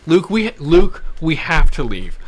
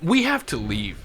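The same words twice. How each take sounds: First: Louder, pressing plea to get out; urgent retold plea. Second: Said in the usual way. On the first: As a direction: insist he has to go now. Urging friend to leave fast.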